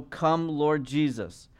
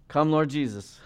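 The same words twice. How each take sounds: First: Drawn out slowly, like a prayer; slow, reverent plea; slow prayerful plea. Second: Said in the usual way. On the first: Acted. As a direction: let each word linger, pleading. Scripture quote read as prayer.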